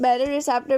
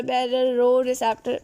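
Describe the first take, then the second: First: बैरोरेसेप्टर said with "re" in the middle, bai-ro-re-sep-tar; alternate pronunciation. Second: बैरोरोसेप्टर said with "ro" twice, bai-ro-ro-sep-tar, a little slow; other pronunciation. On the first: Teacher showing students one accepted reading, बैरोरेसेप्टर with "re". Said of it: "भी पढ़ते हैं कुछ लोग". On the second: Teacher giving students the second reading, बैरोरोसेप्टर with "ro", slowly. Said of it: "जो समझ आए पढ़ लेना". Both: Shown as a demonstration.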